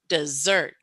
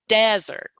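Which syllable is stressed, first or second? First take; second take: second; first. First: The stress is on the second syllable. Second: The stress is on the first syllable. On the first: "I'm emphasizing the second part of that word" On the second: "You definitely hear the first part, the D E, much louder, longer. The pitch goes up on that"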